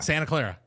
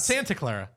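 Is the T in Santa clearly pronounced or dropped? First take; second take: dropped; pronounced. First: The T in Santa is dropped. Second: The T in Santa is clearly pronounced. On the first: This is how Californians say it. "We drop T's" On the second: This is how Californians do not say it.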